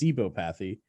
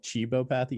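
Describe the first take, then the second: First: The word begins with an s sound. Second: The word begins with a ch sound. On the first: The speaker calls it right. "which I learned to pronounce correctly" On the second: The speaker calls it wrong. "I used to call it"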